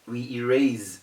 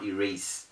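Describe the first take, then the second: First: The s is said as a buzzing z. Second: The s is said as a hissing s. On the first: The speaker calls it right. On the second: The speaker calls it wrong. "we do not erase"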